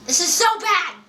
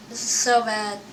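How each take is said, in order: First: High-pitched exclamation of dismay; real, high dismay; exasperated outcry. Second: Said in the usual way. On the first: Real, not acted. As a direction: cry out at how awful it is, pitch jumping up. Repeats complaint as an outcry.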